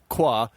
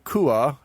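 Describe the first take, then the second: First: The name is said as one syllable, kwa. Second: The name is said as two syllables, koo-ah. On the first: The speaker calls it wrong. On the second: The speaker calls it right.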